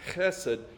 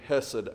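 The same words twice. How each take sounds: First: The first sound is a throaty, raspy h. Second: The first sound is a plain, soft h. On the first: "So that is the proper pronunciation" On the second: "you will hear me just say hesed"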